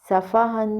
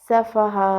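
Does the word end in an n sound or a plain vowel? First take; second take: n sound; vowel. First: The word ends with an n sound. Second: The word ends on a plain long vowel. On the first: The reading continues without stopping. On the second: The reader stops on this word.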